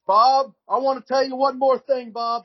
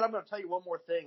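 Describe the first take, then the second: First: High, loud, halting mock promo voice; awful wrestler promo. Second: Said in the usual way. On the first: Mocking Doctor Death's rambling promo to Dusty, high and loud. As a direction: ham up a rambling tongue-tied wrestling promo, much higher and louder. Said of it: "He said". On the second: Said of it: "three or four different times".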